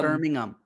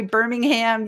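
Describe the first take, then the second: First: "Birmingham" with the H dropped, ending in "um"; corrected pronunciation. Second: "Birmingham" said the American way, the H sounded and the end as "ham"; "Birmingham" pronounced as an American reads it; American pronunciation. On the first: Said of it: "we just say Birmingham". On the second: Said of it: "I'm saying it wrong". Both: Shown as a demonstration.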